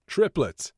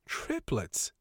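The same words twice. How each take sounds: First: High, loud burst of news; excited announcement. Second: Softer, amazed echo of the news; astonished exclamation. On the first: Acted. Doctor breaking birth news to receptionist, excited announcement. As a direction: announce it proudly, pitch leaping then falling. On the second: A narrator's reading. Receptionist exclaiming over the legal implications, understated astonishment. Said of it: "She was exclaiming".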